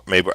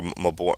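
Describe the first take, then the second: First: "Mabor" with a long a and a weak ending; first-syllable stress. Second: "Mabor" with a long o first and BOR at the end; second-syllable stress. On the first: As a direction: say "Mabor" as MAY-ber. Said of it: "I think it's Mabor". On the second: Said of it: "I don't know if it's". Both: Shown as a demonstration.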